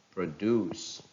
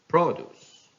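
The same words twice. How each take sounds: First: "produce" as pro-DUCE; stress on second syllable. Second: "produce" as PRO-duce, high and loud start; stress on first syllable. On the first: Teacher reading a verb, "produce" stressed on DUCE. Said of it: "stress falls on the second syllable". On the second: Teacher reading a noun, "produce" stressed on PRO. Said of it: "stress on the first syllable". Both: Shown as a demonstration.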